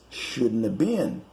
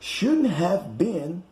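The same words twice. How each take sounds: First: Have is reduced and blended into shouldn't. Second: Have is pronounced as a full separate word.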